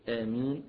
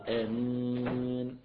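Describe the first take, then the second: First: The final vowel is held for two counts. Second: The final vowel is held for four counts. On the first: "حركتين" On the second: "أربعة"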